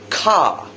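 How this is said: A British accent with a silent R.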